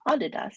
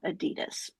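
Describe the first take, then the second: First: It is the original German pronunciation of the name. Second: It is the American pronunciation of the name.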